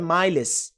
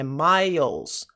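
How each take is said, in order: First: The word is pronounced the way it is spelled. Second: The word is pronounced like 'mylz', one syllable. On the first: The speaker calls it wrong. "Não é miles" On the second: The speaker calls it right. "é miles"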